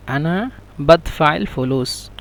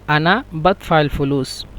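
First: আনা বাদফাইল ফুলুস said slowly, each word held apart; slow repeat. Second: Said in the usual way. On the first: Shown as a demonstration. Teacher repeating the dialect sentence for students, slow and careful. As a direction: spell out বাদফাইল slowly for the class. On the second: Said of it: "এবং আঞ্চলিক ভাষা হলো".

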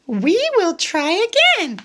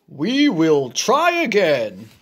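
First: High little pig voice; Piggy encouraging Gerald, high voice. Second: Gerald voice. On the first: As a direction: pitch way up, cheery little pig. Piggy's line. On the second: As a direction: lower big elephant voice. Gerald echoes Piggy. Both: Acted.

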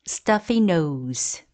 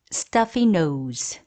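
No difference in how they are said.

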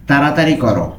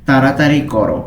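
The two takes are said the same way.

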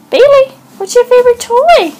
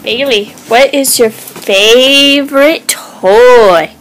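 First: Much higher, sing-song pet voice. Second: Said in the usual way. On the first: Real, not acted. Owner asking her dog about its favorite toy, in high baby talk. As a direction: coo the question up high at the dog.

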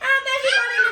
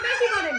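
First: Laughing, higher and louder; laughing shout. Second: Said in the usual way. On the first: Real, not acted. Kids excited at paper shower. (হাসতে হাসতে চিৎকার)

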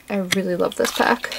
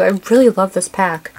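First: "I really love this pack" said softer, dropping away; soft repeat. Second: Said in the usual way. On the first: Real, not acted. Vlogger repeating her love for the pack, softly.

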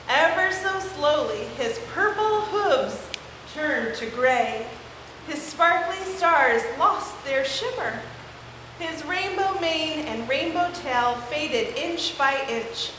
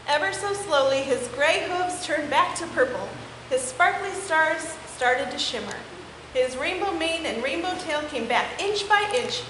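First: Slow and fading away; slow fading narration. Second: Said in the usual way. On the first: A narrator's reading. Narrator telling how the unicorn's colors fade, slow. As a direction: let each phrase drain away, slowly.

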